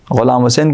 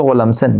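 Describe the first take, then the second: First: Said in the usual way. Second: "غلام حسین" slurred into Ghulamsen; mangled name. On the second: Retold or imitated. ("غلام حسین" کو غلامسین کہنا) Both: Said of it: "ہم لوگ بگاڑ کے پیش کرتے ہیں".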